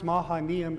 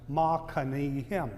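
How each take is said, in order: First: The name is said with an English pronunciation. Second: The name is said with a Hebrew pronunciation. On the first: "pronounced Mahanaim in English" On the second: "in Hebrew it's pronounced Machanaim"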